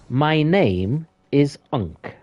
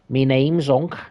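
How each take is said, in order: First: It is said in a very posh British accent. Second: It is said in a Scouse accent. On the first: "if I was trying to say very posh, poshly" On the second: "If I was trying to do it in a more of a Scouse voice"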